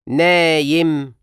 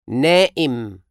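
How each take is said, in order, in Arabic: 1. الصوت اللي في النص صوت ياء. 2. الصوت اللي في النص همزة.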